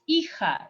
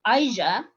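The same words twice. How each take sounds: First: "hija" with silent H, as EE-ha; correct Spanish pronunciation. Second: "hija" misread English-style as EYE-zha; mispronounced hija. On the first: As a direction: say "hija" with an ee start and a breath-like j. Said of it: "don't pronounce the H". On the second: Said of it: "is not hija". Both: Shown as a demonstration.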